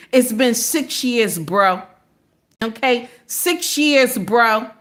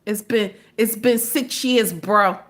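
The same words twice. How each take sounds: First: Lightly done slow Jersey accent. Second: Said in the usual way. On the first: Shown as a demonstration. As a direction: say it like a guy from Jersey, easy. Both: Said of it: "Let me put my Jersey accent in here".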